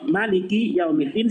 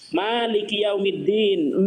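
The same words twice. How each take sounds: First: The vowel after the m is kept short. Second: The vowel after the m is held long. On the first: "mimnya dibaca pendek" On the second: "mimnya dibaca panjang"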